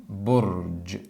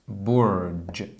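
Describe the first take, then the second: The two takes are said the same way.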